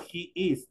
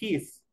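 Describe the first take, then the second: First: It is said as two separate syllables. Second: It is said as one single syllable. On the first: "En la full form digo he is, dos tiempos" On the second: "En la short form digo his de una sola"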